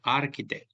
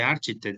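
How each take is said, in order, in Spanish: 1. La consonante del medio se pronuncia como k. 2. La consonante del medio se pronuncia como ch. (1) "va a sonar como una K" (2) "no se dice"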